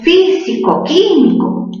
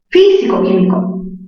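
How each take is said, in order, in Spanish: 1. Ambas palabras tienen su propio acento fuerte. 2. Solo la sílaba qui lleva acento fuerte. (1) "tú no pronuncias así" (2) "Mayor fuerza en qué sílaba? En la sílaba qui"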